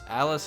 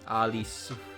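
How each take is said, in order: First: The name is said the plain English way. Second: The name is said with Japanese sounds, ending in -su. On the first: "Alice is a name we just say" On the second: "they say like Alisu"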